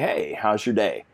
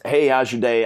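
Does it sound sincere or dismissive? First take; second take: sincere; dismissive. First: It sounds slow, sincere and caring. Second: It sounds quick, offhand and uninterested.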